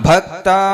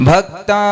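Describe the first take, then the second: No difference in how they are said.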